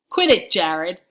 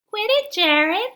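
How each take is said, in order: First: It is yelled in a deep, forceful voice. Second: It is said in a high, whiny voice. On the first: The speaker is standing up for himself. "I yelled in a man in a manly way" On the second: Someone is mocking the other speaker. "Stanley says in a whiny voice"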